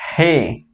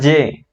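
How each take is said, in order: First: The letter is pronounced as in Spanish. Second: The letter is pronounced as in French. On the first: The speaker calls it right. "on dit G" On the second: The speaker calls it wrong. "On dit pas J"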